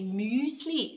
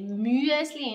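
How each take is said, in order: First: It is said with a Standard German pronunciation. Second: It is said with a Swiss German pronunciation. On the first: The speaker calls it wrong. "Don't say Müsli" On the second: The speaker calls it right. "say Müsli in Swiss German"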